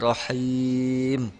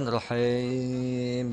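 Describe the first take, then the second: First: The h sound is pronounced clearly. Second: The h sound is blurred and faint. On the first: The speaker calls it right. "harus jelas uh, huruf H" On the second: The speaker calls it wrong. "bukan rohim gitu ya"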